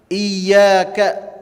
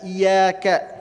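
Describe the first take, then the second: First: The y sound is held long and doubled. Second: The y sound is short and single. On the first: Worship is directed to God alone. The speaker calls it right. "iyyaka haruslah menggunakan syaddah" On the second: Worship is directed to the light of the sun. The speaker calls it wrong. "Tidak boleh seorang membacanya iyyaka"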